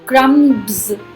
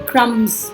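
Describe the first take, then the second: First: The b sound is pronounced before the s. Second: The b sound is left silent. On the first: The speaker calls it wrong. "क्रम्स नहीं बोलेंगे" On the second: The speaker calls it right. "क्रम्स बोलेंगे"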